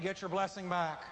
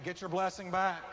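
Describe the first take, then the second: First: It is said plainly, without special force. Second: It is said forcefully, with strong conviction.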